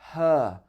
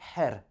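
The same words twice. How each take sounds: First: It ends in a long er without R. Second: The R sound is clearly pronounced. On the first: The speaker calls it right. "it's a long er at the end of the word" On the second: The speaker calls it wrong. "It's not her"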